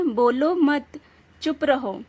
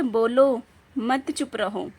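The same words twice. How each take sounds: First: बोलो मत joined, a break, then चुप रहो; pause after मत. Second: बोलो drawn out, a break, मत चुप रहो together; pause after बोलो. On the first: Teacher reads the third example to students, pausing after बोलो मत. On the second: Teacher reads the changed sentence to students, pausing after बोलो. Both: Shown as a demonstration. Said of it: "विराम का स्थान बदलने".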